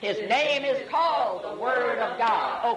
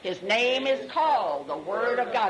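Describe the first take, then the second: First: It is said with much more energy. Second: It is said with ordinary energy.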